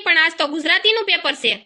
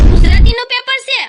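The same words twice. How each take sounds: First: Said in the usual way. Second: Shocked shout, much higher and louder; shocked cry. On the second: Acted. Dhokli learns the exam is Gujarati, shocked shout. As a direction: blurt it out in sudden panic.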